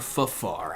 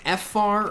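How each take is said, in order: First: It starts with a short syllable fa, then far. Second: It starts with the letter name F, then far. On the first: "or Fafar? I like Fafar" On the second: "Is it F-far"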